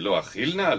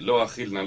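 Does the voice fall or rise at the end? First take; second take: rises; falls. First: The voice rises at the end, like a question. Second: The voice falls at the end, like a statement. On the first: The speaker will certainly eat. "Of course I'm going to eat, you understand?" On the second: The speaker will not eat. "So he can say"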